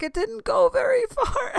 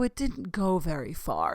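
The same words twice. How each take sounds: First: Very high squeal breaking into laughter; laughing echo. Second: Said in the usual way. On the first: Retold or imitated. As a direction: repeat it back in a squeaky, laughing voice. Gleefully repeating his quip back. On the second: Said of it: "Christopher Lloyd's like".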